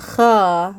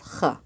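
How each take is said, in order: First: The vowel after kh is long. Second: The vowel after kh is short. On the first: The speaker calls it wrong. "It's not kha" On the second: The speaker calls it right. "but just kha. ... short"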